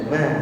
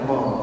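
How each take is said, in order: First: The vowel is thin and spread, like 'a'. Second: The vowel is thick and rounded, like 'o'. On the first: The speaker calls it right. "huruf tipis itu rumusnya senyumkan saja" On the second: The speaker calls it wrong. "jangan mo"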